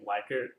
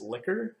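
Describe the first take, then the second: First: The first syllable sounds like 'like'. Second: The first syllable sounds like 'lick'. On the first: The speaker calls it wrong. "I've only recognized this as being Likert personally" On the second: The speaker calls it right. "The actual pronunciation of this word is liquor"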